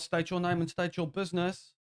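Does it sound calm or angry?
calm. It is said fairly calmly.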